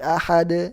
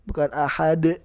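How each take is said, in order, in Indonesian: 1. Huruf d terakhir berakhir dengan gema yang halus. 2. Huruf d terakhir berakhir dengan hentakan tiba-tiba. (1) "Yang benar ahad" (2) "seolah-olah ada hamzah setelah huruf dalnya"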